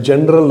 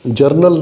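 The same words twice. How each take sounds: First: जनरल said je-na-ral, the n before the r; correct pronunciation. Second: जर्नल said jur-nal, the r right after the first vowel; wrong pronunciation. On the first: Teacher gives the right जनरल to the student, je-na-ral. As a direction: say जनरल properly as je-na-ral, n then r. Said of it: "जर्नल नहीं होता है, जनरल होता है". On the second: Teacher voices the wrong जर्नल to correct a student, jur-nal. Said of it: "जर्नल नहीं होता है". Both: Shown as a demonstration.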